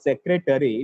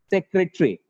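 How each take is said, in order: First: The word is said with four syllables. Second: The word is said with three syllables. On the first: The speaker calls it wrong. "It looks like the word has four syllables, but actually the pronunciation of this word is not secretary" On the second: The speaker calls it right. "it is secretary... It has only three syllables actually"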